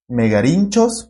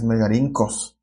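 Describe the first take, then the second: First: The consonant after 'rin' sounds like 'ch'. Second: The consonant after 'rin' sounds like 'k'. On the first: The speaker calls it wrong. "debería ser megarinchos, pero no" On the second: The speaker calls it right. "es megarincos"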